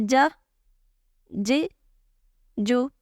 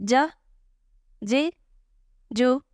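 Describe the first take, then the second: No difference in how they are said.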